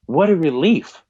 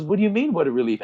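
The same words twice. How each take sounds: First: Higher-pitched retold tearful relief. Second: Retold puzzled dad, pitched high then dropping; puzzled questioning. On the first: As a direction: imitate a crying son letting out his relief. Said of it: "just starts crying". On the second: Dad questioning his crying son, retold puzzlement. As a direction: question it as a taken-aback father.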